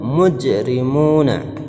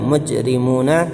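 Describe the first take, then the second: First: The j is released with a short echoing bounce. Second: The j is closed flat with no bounce. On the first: The speaker calls it right. "tapi mujrimuna" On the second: The speaker calls it wrong. "tidak kita baca mujrimuna"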